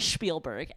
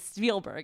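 First: The first syllable sounds like the word 'spiel'. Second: The first syllable does not sound like 'spiel'. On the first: The speaker calls it wrong. "It's not Spielberg. ... I kept on saying spiel" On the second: The speaker calls it right. "which it's Spielberg"

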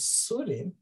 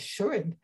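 First: The name begins with an 's' sound. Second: The name begins with an 'sh' sound. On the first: This is how a speaker who cannot say shin said it. "could not say shin. It was Surin" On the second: This is the name as it is normally said. "their name is Shurin"

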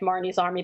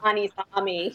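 First: It is said in a neutral accent. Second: It is said in a Boston accent.

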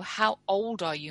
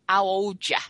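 First: The H is pronounced and words are distinct. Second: The H is dropped and words are slurred.

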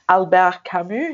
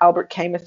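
First: The name is said with a French accent. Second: The name is said with an English accent.

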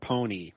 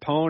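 First: The name ends with an added 'ee' sound. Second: The name ends without an added 'ee' sound. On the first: The speaker calls it wrong. "you would be wrong on both of those guesses" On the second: The speaker calls it right. "It's just Pone"

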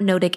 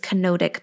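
First: It starts with a bare n sound, no first vowel. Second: It starts with a k sound plus a vowel. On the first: The speaker calls it wrong. "It's not gnotic" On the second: The speaker calls it right. "it's kenotic path"

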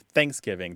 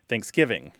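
First: The stress is on the first syllable. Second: The stress is on the second syllable. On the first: The speaker is an older Southerner. "don't tend to say things like ... Thanksgiving" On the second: The speaker is a younger speaker. "They're more likely to say ... Thanksgiving"

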